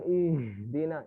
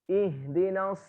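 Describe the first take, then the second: First: The h vibrates down into the chest. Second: The h vibrates only in the throat. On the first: The speaker calls it wrong. "Bukan ihdina. Ini salah" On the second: The speaker calls it right. "Cukup yang geter ininya aja"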